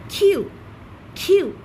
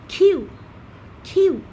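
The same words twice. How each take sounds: The two takes are said the same way.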